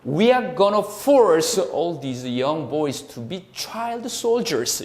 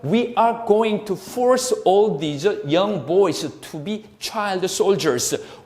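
First: Key words are stressed and the others weakened. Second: Every word is pronounced clearly and fully. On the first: "이 노란색을 강요해서 다른 것들을 좀 약화시켜서 발음한다" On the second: "또박또박 얘기해줘요"

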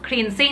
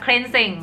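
First: The first vowel sounds like the vowel in 'see'. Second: The first vowel sounds like the vowel in 'bed'. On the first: "แน็กขออนุญาตพูดเป็นสระอีนะคะเป็น Thai accent" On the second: "สระเอนะคะ"

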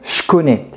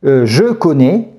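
First: The word je is reduced to a ch sound. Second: The word je is pronounced fully with its vowel. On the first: "On va souvent transformer le « je » en « ch »" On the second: "À la place de dire « je connais »"

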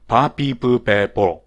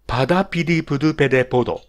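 First: The r sounds drop out, leaving long vowels. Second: Some r sounds turn into d sounds. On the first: "ラ行がア行に変わってしまう人ですね" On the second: "これもラ行が弱い人"

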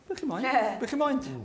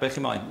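First: It is said in a gentle, friendly tone. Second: It is said in a harsh, barking tone. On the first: The speaker is politely asking what someone wants. "You can say it in a nice way" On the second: The speaker is annoyed at an unwelcome caller. "you want to bark at people now and say"

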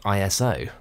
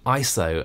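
First: It is spelled out letter by letter. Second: It is said as one word. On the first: The speaker calls it wrong. "and not ISO" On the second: The speaker calls it right. "it really is ISO"

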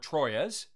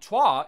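First: The name is pronounced with an English sound. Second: The name is pronounced with a French sound. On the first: "the more common way to pronounce it" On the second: "the Frenchy sort of way to do it"

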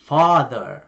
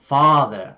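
Both takes have the same delivery.

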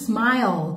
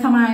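First: The word ends with a clear L sound. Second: The word ends without a clear L sound. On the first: The speaker calls it right. "โดยตัวสะกดมันสะกดด้วย, l, มันต้องเป็น" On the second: The speaker calls it wrong. "สมมติเราพูดแต่"

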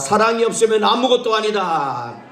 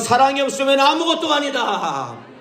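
First: It is said in a loud voice. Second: It is said in an even louder voice. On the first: "한번 큰 목소리로 따라합시다" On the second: "더 큰 소리로"

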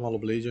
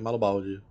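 First: The name ends with the sound 'blade'. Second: The name ends with the sound 'balde'. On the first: The speaker calls it wrong. "Você fala Maloblade" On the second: The speaker calls it right. "é Malobalde"

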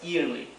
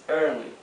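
First: The first vowel sounds like 'ee'. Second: The first vowel sounds like 'er'. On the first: The speaker calls it wrong. "no es early" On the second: The speaker calls it right. "es early"

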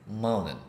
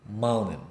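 The two takes are said the same way.

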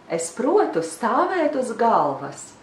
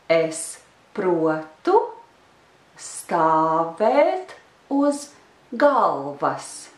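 First: The phrase is said fast. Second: The phrase is said slowly.

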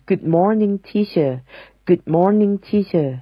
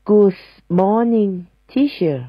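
First: Good is said without an added s sound. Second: An s sound is added after good. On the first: The speaker calls it right. "ต้องเป็น" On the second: The speaker calls it wrong. "จริงๆแล้วผิดนะคะถ้าเติม s หลังGood"

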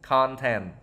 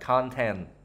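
Both takes have the same delivery.

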